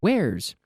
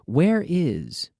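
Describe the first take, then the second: First: It is contracted into one syllable. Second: It is said as two full words. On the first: "with the contraction"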